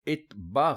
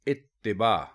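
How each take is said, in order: First: No vowel follows the t sound. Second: An 'i' vowel follows the t sound. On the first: The speaker calls it wrong. "इत्बा गलत है" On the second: The speaker calls it right. "इस तरह बोलेंगे तो ये दुरुस्त होगा"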